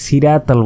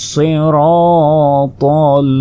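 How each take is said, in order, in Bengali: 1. প্রথম 's' হালকা, সাধারণ 's'। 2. প্রথম 's' ভারী, জোরালো 's'। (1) "আমরা অনেকেই ভুল করি, বলি যে ইহদিনা সিরাতাল বলি" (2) "সজ্জের সুই বলতে হবে"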